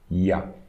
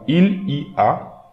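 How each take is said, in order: First: It is squeezed into one syllable, ya. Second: It is said in full as three syllables. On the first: "we are reading this as one single word" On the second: "this we can read"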